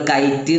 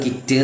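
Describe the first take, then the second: First: The vowel is a long 'eye' sound. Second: The vowel is a short 'i' sound. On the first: The speaker calls it wrong. "ചില ആളുകൾ കൈറ്റ് എന്ന് പറയാറുണ്ട്" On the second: The speaker calls it right. "Correct pronounce കിറ്റ് ആണ്"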